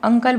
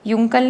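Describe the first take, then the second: First: The word begins with a plain vowel sound. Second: The word begins with a 'y' sound. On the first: The speaker calls it right. "अंकल बोलेंगे" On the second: The speaker calls it wrong. "युंकल नहीं बोलेंगे हम"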